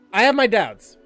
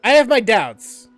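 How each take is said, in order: Both takes have the same delivery.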